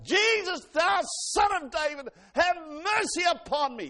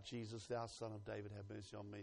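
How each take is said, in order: First: High, very loud desperate cry; top-of-the-voice yell. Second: Said in the usual way. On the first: Acted. Bartimaeus crying out to Jesus for mercy, yelling. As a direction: cry out with all your might, words drawn out. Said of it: "He yelled at the top of his voice". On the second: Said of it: "when he cried out".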